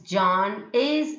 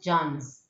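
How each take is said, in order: First: Both words are said in full, separately. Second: The words merge into one contracted syllable. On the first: "John is means John's" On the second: "John is means John's"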